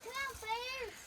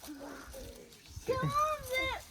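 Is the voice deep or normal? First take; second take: normal; deep. First: It is said in a normal voice. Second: It is said in a deep voice.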